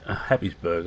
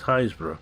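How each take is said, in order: First: The name is sounded out syllable by syllable. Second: The name is said in a clipped, shortened form. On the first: The speaker calls it wrong. "is what it looks like on the paper" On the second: The speaker calls it right. "but it's Haysborough. Real name of a place"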